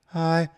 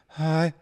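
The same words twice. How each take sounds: No difference in how they are said.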